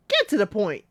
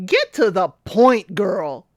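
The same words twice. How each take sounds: First: Said in the usual way. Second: Louder, impatient call at the screen; loud urging. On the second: Real, not acted. Host urging Katisha on screen, loud impatient call. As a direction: get to the point, punched loud on get.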